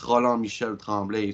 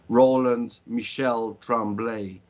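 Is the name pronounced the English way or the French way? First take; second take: French; English. First: The name is said with French pronunciation. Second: The name is said with English pronunciation. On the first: This is how the name really is. "but it's" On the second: People will understand it easily. "I always say it the English way"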